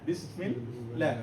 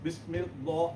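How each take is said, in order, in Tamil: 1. l இலேசாக இருக்கும், வாய் வெறுமையாக இருக்கும். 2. l அழுத்தமாக இருக்கும், ஒவ்வொரு அசையும் தனித்தனியாகப் பிரியும். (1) "சாஃப்டா எம்டியா வரும்" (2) "பிஸ் மில் லா அப்படின்னு வர கஷ்டம்"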